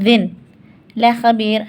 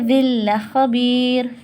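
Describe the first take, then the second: First: The n is pronounced clearly before the l. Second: The n merges into a doubled l sound. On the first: The speaker calls it wrong. "हमें ऐसे नहीं पढ़ना" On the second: The speaker calls it right. "एक ज़ेर को मिला देंगे ला से, और ला पे लगा देंगे तशदीद"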